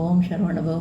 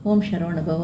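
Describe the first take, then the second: The two takes are said the same way.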